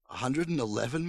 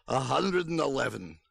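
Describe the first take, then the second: First: "A hundred and eleven" rising to the end; puzzled question. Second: "A hundred and eleven" with a falling end; announcing statement. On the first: Mother querying the visitor's number, "A hundred and eleven" rising. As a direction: echo "A hundred and eleven" with climbing pitch. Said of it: "my mother asked". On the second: Old man announcing his age, "A hundred and eleven" falling. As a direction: stress "hundred", then let "eleven" fall. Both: A narrator's reading.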